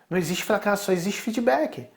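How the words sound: It is said in a tone seeking rapport.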